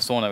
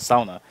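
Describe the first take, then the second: First: The word is said the English way. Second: The word is said the Finnish way. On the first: This is how English speakers usually say it. The speaker calls it wrong. "instead of sauna, which is how we pronounce it" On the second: This is how the people who created it say it. The speaker calls it right. "They pronounce it sauna"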